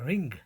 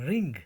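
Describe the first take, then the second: Both takes have the same delivery.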